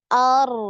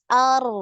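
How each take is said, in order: Both takes have the same delivery.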